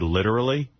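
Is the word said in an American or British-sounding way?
American. It is said with a plain American pronunciation. "instead of saying the word literally"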